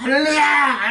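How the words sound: It is shouted in a strong, loud voice.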